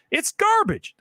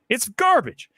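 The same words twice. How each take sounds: First: It's garbage pitched way up; much higher repeat. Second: Said in the usual way. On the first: Real, not acted.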